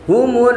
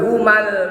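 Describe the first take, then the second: First: The m is followed by a u vowel. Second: The m is followed by an a vowel. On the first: The speaker calls it right. "harus dihidupkan dengan dhamma" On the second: The speaker calls it wrong. "Nggak boleh humal"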